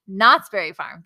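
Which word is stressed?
Knott's. The stress is on Knott's.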